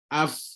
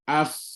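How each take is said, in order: Both takes have the same delivery.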